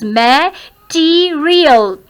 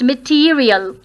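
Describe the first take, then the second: First: "Material" very slowly broken into syllables. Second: "Material" as one word, stressed on "te"; second-syllable stress. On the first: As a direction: stretch out each part of "Material". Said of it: "there are four syllables". ("Material" को धीरे-धीरे तोड़कर) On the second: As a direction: lean on the long "tee" inside "Material". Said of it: "Second syllable is to be stressed". ("Material" में दूसरे हिस्से पर ज़ोर) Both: Shown as a demonstration.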